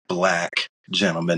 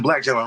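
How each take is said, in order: First: It is said pointedly, with emphasis on black. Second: It is said in a calm, casual tone. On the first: The race is being singled out. "what did you mean by that?" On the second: It is just a neutral description. "cool, calm, whatever, like no big deal"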